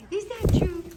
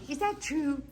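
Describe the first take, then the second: First: Higher, louder teasing question; playful louder ask. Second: Said in the usual way. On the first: Real, not acted. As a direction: tease the bird, voice up and loud. Teasing loud birds.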